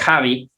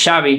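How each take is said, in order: First: The name begins with a throaty 'h' sound. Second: The name begins with a 'sh' sound. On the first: The speaker calls it wrong. "no es Javi" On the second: The speaker calls it right. "que es Xavi"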